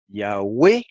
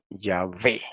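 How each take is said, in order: First: The middle consonant is a W sound. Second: The middle consonant is a V sound. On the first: This is the ancient pronunciation. "es una U en sonido" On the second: This is the modern Hebrew pronunciation. "es una V en sonido"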